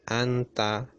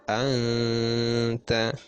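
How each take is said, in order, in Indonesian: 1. Bunyi n-nya jelas dan pendek. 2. Bunyi n-nya samar dan dipanjangkan. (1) "bukan anta" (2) "tapi disamarkan anta"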